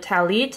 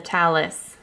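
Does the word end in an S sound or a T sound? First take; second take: T sound; S sound. First: The word ends with a T sound. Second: The word ends with an S sound. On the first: "instead of a talit" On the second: "they call it a talis"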